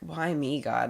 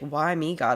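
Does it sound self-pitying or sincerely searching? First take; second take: self-pitying; sincerely searching. First: It sounds rhetorical and self-pitying, like a victim. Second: It sounds like a sincere question seeking purpose.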